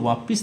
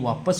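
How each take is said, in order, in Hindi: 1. दूसरे अक्षर में i स्वर है। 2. दूसरे अक्षर में a स्वर है। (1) "वापिस नहीं" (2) "वापस होता है"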